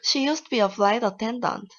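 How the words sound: It is said in a happy tone.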